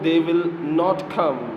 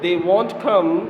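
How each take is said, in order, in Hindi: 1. नकारात्मक शब्द दो अलग शब्दों में बोला जाता है। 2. नकारात्मक शब्द एक छोटे शब्द में संक्षिप्त हो जाता है।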